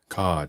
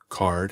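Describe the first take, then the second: First: It has an Australian accent without the R. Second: It has an American accent with the R. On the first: "cod in Australian and British English" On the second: "pronounced card in American English"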